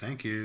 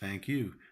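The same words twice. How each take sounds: First: The stress falls on thank. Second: The stress falls on you.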